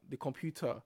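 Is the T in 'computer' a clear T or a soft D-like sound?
clear T. The T is a clear, crisp T.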